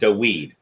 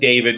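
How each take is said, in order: First: The middle consonant is a W sound. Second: The middle consonant is a V sound. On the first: The speaker calls it wrong. "was not King Dawid" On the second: The speaker calls it right. "I'm pronouncing the W as a V"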